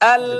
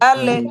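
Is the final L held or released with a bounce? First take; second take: held; bounced. First: The final L is held without release. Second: The final L is released with a bounce. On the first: The speaker calls it right. "লাম ছুটবে না, যেমন আল ধরে থাকবে" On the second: The speaker calls it wrong. "এটা বললে এটা ছুটা হয়ে যায়, মানে কলকলা হয়ে যায়"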